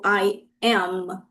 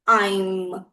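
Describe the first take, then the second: First: Two separate words with no joining. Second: The words are joined into one syllable. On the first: "a gente não vai falar assim separadinho" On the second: "A gente vai juntar e fazer"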